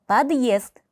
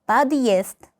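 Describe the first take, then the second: The two takes are said the same way.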